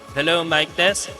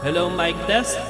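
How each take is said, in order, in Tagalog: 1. Mas kaunti ang reverb at natural ang tunog ng boses. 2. May dagdag na reverb ang boses. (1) "Hinaan natin yung reverb para medyo natural" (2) "lagyan natin ng reverb yung ating vocals"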